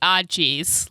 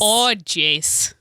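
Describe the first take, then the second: First: Drawn-out Midwestern ah jeez; Minnesota accent. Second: "Oh, jeez" in a broad Minnesota twang; Minnesota accent. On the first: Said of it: "gotta say it like". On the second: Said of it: "do it in a Minnesotan accent". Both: Shown as a demonstration.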